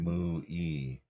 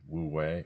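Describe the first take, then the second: First: The term begins with an m sound. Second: The term begins with a w sound.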